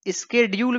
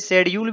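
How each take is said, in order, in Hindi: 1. यह शब्द 'sk' ध्वनि से शुरू होता है। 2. यह शब्द 'sh' ध्वनि से शुरू होता है। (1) "अमेरिकन इंग्लिश में स्केड्यूल भी पढ़ते हैं" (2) "इंडिया में शेड्यूल पढ़ा जाता है"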